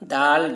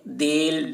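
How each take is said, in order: First: The letter name has an aa-like vowel. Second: The letter name has an e-like vowel. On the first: The speaker calls it right. "मारूफ पढ़ा गया है" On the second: The speaker calls it wrong. "अगर मजहूल पढ़ते तो क्या पढ़ते"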